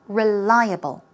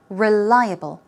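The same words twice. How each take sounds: No difference in how they are said.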